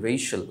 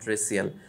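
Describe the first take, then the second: First: The middle consonant is an 'sh' sound. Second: The middle consonant is an 's' sound. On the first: The speaker calls it right. "রেশিয়াল উচ্চারণ" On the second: The speaker calls it wrong. "Not রেসিয়াল"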